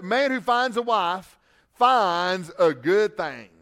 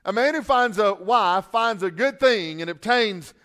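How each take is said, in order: First: Leaning slowly on "thing" at the end; slow read, "thing" pressed down; emphasis on thing. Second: Said in the usual way. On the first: Shown as a demonstration. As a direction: give "thing" the weight of the verse. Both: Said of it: "I might have put some emphasis on thing there".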